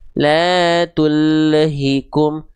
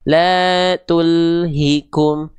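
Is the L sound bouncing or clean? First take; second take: bouncing; clean. First: The L bounces with an added vowel sound. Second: The L stops cleanly with no added vowel. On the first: The speaker calls it wrong. "Jangan sampai kita baca la tullahikum" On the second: The speaker calls it right. "Harusnya yang betul seperti apa? La tulhikum"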